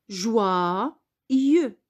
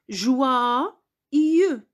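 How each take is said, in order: No difference in how they are said.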